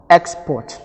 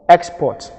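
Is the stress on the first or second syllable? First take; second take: first; first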